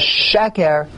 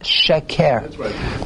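First: The stress is on the first syllable. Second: The stress is on the second syllable. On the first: The speaker calls it right. "So the emphasis is on the first. The correct pronunciation is sheker" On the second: The speaker calls it wrong. "not sheker"

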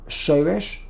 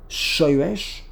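The two takes are said the same way.

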